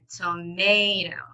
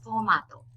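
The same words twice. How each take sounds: First: The middle syllable is held longer. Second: All three syllables have equal length. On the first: "the middle part is longer" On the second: "It's tomato in Japanese"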